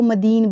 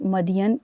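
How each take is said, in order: First: The name ends with an '-een' sound. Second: The name ends with a '-yan' sound. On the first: This is how some people read it. The speaker calls it wrong. "बाज़ लोग इसको मदीन भी पढ़ते हैं" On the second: This is the form closer to the Arabic. The speaker calls it right. "मदियन ही बोलें"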